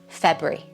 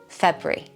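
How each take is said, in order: First: The word is squeezed into two syllables. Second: The same.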